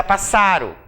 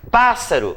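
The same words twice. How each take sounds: First: "passaro" stressed on SA; accent removed. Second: "Pássaro" stressed on PÁS, pitched high; accented first syllable. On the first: Teacher shows the word without accent, stress moved to SA. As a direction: move the beat to the middle, pas-SA-ro. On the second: Teacher gives the accented word, stressed on the first syllable. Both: Shown as a demonstration. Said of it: "fica passaro".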